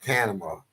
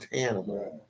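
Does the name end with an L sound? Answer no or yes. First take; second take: no; yes. First: The name ends without a final L sound. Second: The name ends with a clear final L sound. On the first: The speaker calls it wrong. "not Tanima" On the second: The speaker calls it right. "like animal Tanimal"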